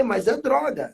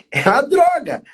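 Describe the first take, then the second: First: Said in the usual way. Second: Loud, high, hammering the word droga; "droga" punched loud and high to end the debate; emphatic. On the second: Real, not acted. Pastor insists to the sisters that drink is a drug, hammering it.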